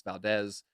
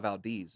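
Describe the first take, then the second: First: Valdez with a short eh, "val-DEZ"; correct pronunciation. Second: Valdez with a long ee, "val-DEEZ"; wrong pronunciation. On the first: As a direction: say Valdez with the Spanish open e. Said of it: "the E is pronounced eh". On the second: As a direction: say Valdez to rhyme with "sneeze". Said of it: "it's Valdez". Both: Shown as a demonstration.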